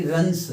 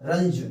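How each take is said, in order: First: रंस said with a hissed s at the end; wrong s ending. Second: रंज said with a buzzing z at the end; z sound at the end. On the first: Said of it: "ना कि रंस". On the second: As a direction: end रंज on a voiced z, not an s. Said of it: "रंज बोलेंगे इसको". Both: Shown as a demonstration.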